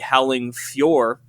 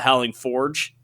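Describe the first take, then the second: First: Fjord is said with a y sound after f. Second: Fjord is said like forge, with no y sound. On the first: "I hopefully said that right" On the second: "I always used to call it the Howling Forge"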